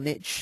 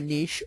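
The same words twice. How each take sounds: First: The word is said the American way. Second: The word is said in a non-American way.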